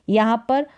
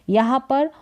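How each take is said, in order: The two takes are said the same way.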